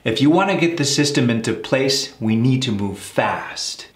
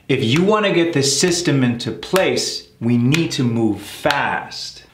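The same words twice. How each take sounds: First: The sentence is spoken at a faster pace. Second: The sentence is spoken at a slower pace.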